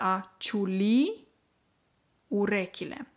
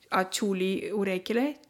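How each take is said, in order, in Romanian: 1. Accentul din ciuli cade pe ultima silabă. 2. Accentul din ciuli cade pe prima silabă. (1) "Observați accentul pe ultima vocală I" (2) "Nu se spune ciuli"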